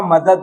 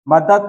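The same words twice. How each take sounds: First: मदद ending in d, "madad"; correct form. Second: मदद ending in t, "madat"; wrong form. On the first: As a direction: keep both d sounds in मदद. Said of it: "double द होता है". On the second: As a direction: harden the last sound of मदद to t. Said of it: "मदद नहीं होता". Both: Shown as a demonstration.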